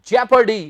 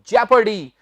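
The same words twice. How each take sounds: First: It begins with one short syllable, 'jep'. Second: The same.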